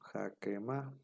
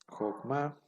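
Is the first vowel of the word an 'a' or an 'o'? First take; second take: a; o. First: The first vowel is an a sound. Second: The first vowel is an o sound. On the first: The speaker calls it wrong. "caeríamos en la tentación de, de- de decir Jakema" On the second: The speaker calls it right. "esta palabra sí va a cumplir con la regla"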